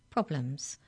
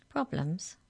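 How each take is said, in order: First: PROBLEMS as a settled confirmation; repeating. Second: PROBLEMS as a puzzled question. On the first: Molly confirming to hex checker, stating PROBLEMS. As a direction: repeat "Problems" back as a statement. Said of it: "repeated Molly". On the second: Hex checker querying the giants, questioning PROBLEMS. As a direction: ask "Problems" back, slightly lifted. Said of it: "asked the hex checker". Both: A narrator's reading.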